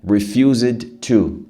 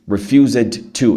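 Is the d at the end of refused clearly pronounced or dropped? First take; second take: clearly pronounced; clearly pronounced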